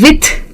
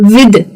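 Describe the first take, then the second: First: The th is a voiceless sound, like th. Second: The th is a voiced sound, like d. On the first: The speaker calls it wrong. "यानी कि soft टीएच के साथ। गलत है" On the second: The speaker calls it right. "इसे hard के साथ pronounce करना होता है"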